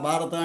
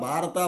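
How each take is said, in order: The two takes are said the same way.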